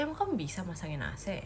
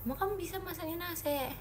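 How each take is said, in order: First: Said in the usual way. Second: Higher, softer teasing doubt; mock doubtful; doubtful challenge. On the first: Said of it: "reading the chat question". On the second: Shown as a demonstration. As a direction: challenge the viewer playfully. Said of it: "repeats it as a challenge".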